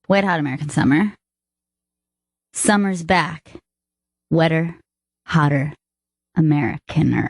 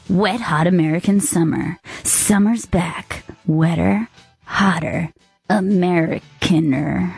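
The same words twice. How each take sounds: First: It is said in a normal speaking voice. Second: It is said in a movie-trailer voice.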